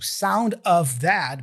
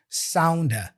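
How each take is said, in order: First: The word 'of' is pronounced fully. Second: The word 'of' is reduced to a schwa. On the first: "he doesn't say sound of that" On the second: "Of gets reduced to a here"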